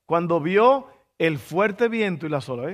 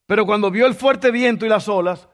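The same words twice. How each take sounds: First: Said in the usual way. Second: Fuerte hit higher and louder; stress on fuerte. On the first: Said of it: "repeats the line". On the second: Shown as a demonstration. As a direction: lean hard on the word fuerte. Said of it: "repeats the line plainly".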